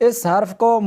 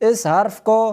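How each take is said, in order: No difference in how they are said.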